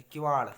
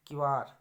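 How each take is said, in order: First: किवाड़ much louder, ending in retroflex ṛ; retroflex flap. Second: किवाड़ said loudly as 'kivaar'; r for flap. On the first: Teacher giving the correct word, किवाड़ loud with flapped ending. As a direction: curl the tongue for the end of किवाड़. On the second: Teacher showing a mistake, किवाड़ with simple r. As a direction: close किवाड़ on a plain r. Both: Shown as a demonstration. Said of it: "ये सही है".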